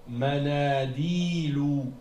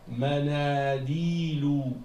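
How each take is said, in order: Both takes have the same delivery.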